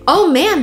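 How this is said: It is said in an excited, delighted tone. Something is wonderful. "this is awesome. I love it. Completely different emotion"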